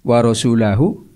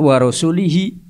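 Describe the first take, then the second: First: The last word ends with an u-hu sound. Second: The last word ends with an i-hi sound. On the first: The speaker calls it right. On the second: The speaker calls it wrong.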